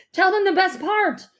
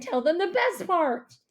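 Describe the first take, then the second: First: Loud, high, excited interruption; eager urging. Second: High, pleading whine; whining. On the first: Dad urging mom to share the good news, excitedly. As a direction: burst in, impatient to share. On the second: Dad begging mom to tell the good news, whining. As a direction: whine it like an impatient child. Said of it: "my dad whined". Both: A narrator's reading.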